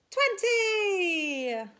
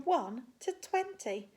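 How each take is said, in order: First: "twenty" shouted, louder and higher, long falling. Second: Said in the usual way. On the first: Acted. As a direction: yell "twenty" like the big finish of the count. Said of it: "shout out a number".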